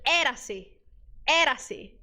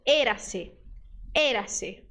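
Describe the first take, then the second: First: "Era-se" with an open É like Portuguese é; open E mistake. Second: "Era-se" with a closed Ê, as in Portuguese ê. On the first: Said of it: "Você vai ter a tentação de dizer". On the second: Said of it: "você vai dizer". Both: Shown as a demonstration.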